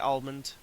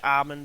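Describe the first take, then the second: First: The name is said with the l sounded. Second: The name is said with a silent l. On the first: "I say almond. Because that's how it's spelt" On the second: "Some people say almond"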